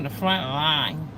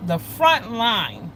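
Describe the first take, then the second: First: Said in the usual way. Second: FRONT drawn out slowly; emphatic repeat. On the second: Real, not acted. Telling viewers he was put on the front line, emphatic, slow FRONT LINE.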